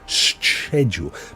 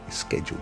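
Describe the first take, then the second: First: The word begins with a soft ch sound. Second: The word begins with a hard k sound. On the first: "you're trying to say the ch, like church" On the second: "some people pronounce the c as a hard k"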